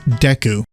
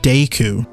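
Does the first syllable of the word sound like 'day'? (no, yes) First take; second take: no; yes. First: The first syllable does not sound like 'day'. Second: The first syllable sounds like 'day'.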